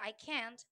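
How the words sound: It is said with an American accent. "In American"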